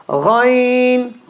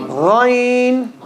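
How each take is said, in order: The two takes are said the same way.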